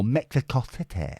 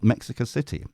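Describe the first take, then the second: First: Badly faked foreign accent on Mexico City; Mexico City in a mangled put-on accent; unidentifiable accent. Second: Said in the usual way. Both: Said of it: "I don't know what accent that was".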